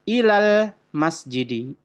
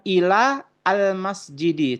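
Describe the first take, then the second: First: Ila runs straight into al as one. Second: Ila and al are said as separate words. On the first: The speaker calls it right. "tetapi ilal masjidi" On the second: The speaker calls it wrong. "bukan ila al masjidi"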